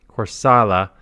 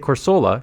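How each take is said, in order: First: The middle syllable has an ah vowel. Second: The middle syllable has an oh vowel. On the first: "someone says it's an A" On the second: "I used to say Corsola because that's how it's written"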